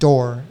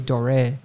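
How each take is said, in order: First: The name is said as one short syllable. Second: The name is said French-style, with two syllables. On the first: "but it's like Dor" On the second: "my French wants to say Doré"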